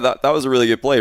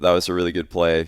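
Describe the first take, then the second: First: The voice sounds happy, as if smiling. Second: The voice sounds flat, without a smile. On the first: The speaker calls it right. "I would be actually happier doing it" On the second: The speaker calls it wrong. "instead of saying like"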